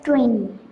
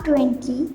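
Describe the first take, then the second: First: The second t sound is silent. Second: The second t sound is pronounced. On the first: The speaker calls it right. "ട്വന്റിയിലുള്ള ടി silent ആണ്" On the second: The speaker calls it wrong. "it's not twenty"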